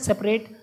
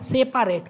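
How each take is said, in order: First: The middle vowel is short and reduced. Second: The middle vowel is a full, clear 'pa'. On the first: This is how the word is normally spoken. "बोला जाता है सेपरेट" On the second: This is said to help remember the spelling. "तो इसको पढ़ना क्या? सेपारेट"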